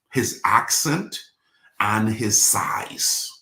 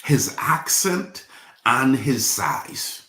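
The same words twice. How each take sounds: First: Drawn out, with a pause before a hushed ending; slow, hushed reveal. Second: Voiced, higher, deliberate restatement; emphatic slow repeat. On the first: Preacher revealing what made the star famous, slow and hushed. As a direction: let the last words sink to a near whisper. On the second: Preacher repeating the answer to the congregation, slow and emphatic. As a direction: drive each part home slowly in full voice. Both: Real, not acted.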